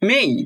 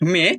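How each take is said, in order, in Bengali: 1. স্বরটি 'e' থেকে 'i'-এর দিকে গড়ায়। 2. স্বরটি একটি সাধারণ, হ্রস্ব 'e' ধ্বনি। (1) "নেটিভরা বলে মেই" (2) "আমরা বলি মে"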